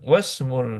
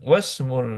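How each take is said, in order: First: The 'i' is dropped, linking straight into 'smu'. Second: The 'i' is dropped, linking straight into 'smu'.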